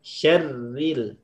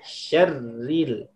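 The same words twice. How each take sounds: The two takes are said the same way.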